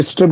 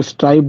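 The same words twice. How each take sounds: First: स्ट्रिप said with a short "i"; स्ट्रिप with a short vowel, as in "strip"; short-i pronunciation. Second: स्ट्राइप said with an "eye" vowel; स्ट्राइप with a gliding "ai", as in "stripe"; long-i pronunciation. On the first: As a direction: say स्ट्रिप to rhyme with "trip". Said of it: "कुछ लोग स्ट्रिप बोलते हैं". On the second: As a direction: say स्ट्राइप to rhyme with "ripe". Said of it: "कुछ लोग स्ट्राइप बोलते हैं". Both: Shown as a demonstration.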